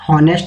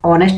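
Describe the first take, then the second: First: The word begins with an h sound. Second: The word begins with a vowel sound. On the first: The speaker calls it wrong. "हॉनेस्ट मत पढ़िए" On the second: The speaker calls it right. "इसको ऑनेस्ट बोला जाता है"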